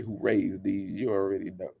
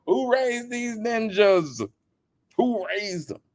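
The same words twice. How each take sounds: First: Soft, muted take of the question; hushed repeat. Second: High, slow exasperated shout; exasperated demand. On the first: Real, not acted. Repeating the question softly to viewers. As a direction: say it under the breath. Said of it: "Y'all know what I wanna say". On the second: Retold or imitated. Demanding who raised them, high slow exasperated call. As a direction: hammer the question in disbelief. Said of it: "I'm like".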